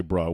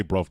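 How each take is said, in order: First: "bruh" ending on an open vowel, no v; bruh, rejected form. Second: "bruv" closed with a v sound; bruv, British form. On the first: Telling a co-host what they don't say, open-ended "bruh". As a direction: say "bruh" with no final consonant. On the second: Correcting a co-host on British slang, "bruv" with final v. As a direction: end "bruv" firmly on the v. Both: Shown as a demonstration. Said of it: "We say bruv".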